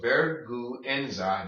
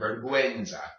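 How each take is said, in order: First: The word is said slowly, syllable by syllable. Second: The word is said smoothly at normal speed. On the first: "Say it slowly" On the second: "then combine them"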